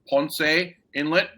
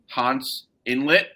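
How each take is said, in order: First: Ponce is said with a Puerto Rican Spanish pronunciation. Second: Ponce is said with a plain American pronunciation.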